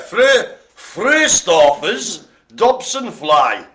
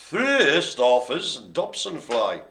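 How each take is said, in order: First: Slow, loud, careful over Fröstorfer's; sounding out a hard name; halting reading of a hard Latin name. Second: Said in the usual way. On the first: Real, not acted. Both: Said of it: "the ones I was have problems with reading".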